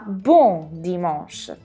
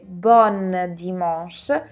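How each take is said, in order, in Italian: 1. Il primo termine finisce con una vocale nasale. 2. Il primo termine finisce con una vocale aperta e n. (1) "ma bon dimanche" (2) "non dovrete dire bon dimanche"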